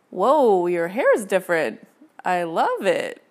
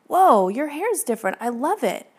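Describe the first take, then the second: First: It sounds judgmental and disapproving. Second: It sounds sincere and admiring.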